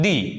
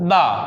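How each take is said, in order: First: The word ends in a long 'ee' vowel. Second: The word ends in a short 'uh' vowel. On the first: The next word starts with a vowel. "Vowel हो तो अपन दी का प्रयोग करते हैं" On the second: The next word starts with a consonant. "Consonant हो तो दा बोलते हैं"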